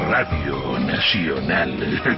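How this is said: It is said in an archvillain voice.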